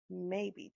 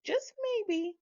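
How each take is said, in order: First: Said in the usual way. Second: "just maybe" jumps much higher with a knowing lift; pointed emphasis. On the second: Shown as a demonstration. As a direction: lean on "just maybe" as a sly hint, pitch way up.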